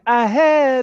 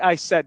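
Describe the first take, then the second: First: The s sound at the start is dropped. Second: The s sound at the start is pronounced. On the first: "they say I had hello" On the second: "they don't say I said"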